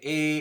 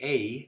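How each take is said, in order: First: The vowel stays steady with no jaw movement. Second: The vowel glides like a Dublin or English diphthong.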